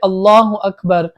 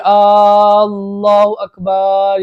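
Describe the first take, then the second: First: The vowels are kept short and plain. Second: A vowel is stretched out much too long. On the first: The speaker calls it right. "इस तरह सिंपल पढ़े" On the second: The speaker calls it wrong. "इस तरह ना पढ़े ... ज्यादा खींचोगे"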